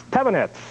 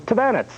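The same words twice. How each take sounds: First: Tavanets stressed on the first syllable, TAV-a-nets; alternative surname pronunciation. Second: Tavanets stressed on the second syllable, ta-VAN-ets; surname pronunciation attempt. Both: Shown as a demonstration. Trying two pronunciations of surname.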